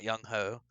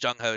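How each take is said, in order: First: The name begins with a Y sound. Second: The name begins with a J sound. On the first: The speaker calls it wrong. "not Young Ho" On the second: The speaker calls it right. "It was pronounced Jung Ho"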